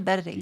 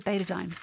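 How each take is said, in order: First: The word is said in a non-American accent. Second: The word is said in an American accent. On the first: This is how the speaker's own people say it. "We, we say betadine" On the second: This is how Americans say it. "Americans say betadine"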